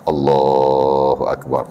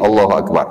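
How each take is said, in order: First: The phrase is said long, with drawn-out vowels. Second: The phrase is said short, without drawn-out vowels. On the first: The speaker calls it wrong. "takbiratul ihram lama, more than tu harakat" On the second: The speaker calls it right. "takbiratul ihram saja pendek"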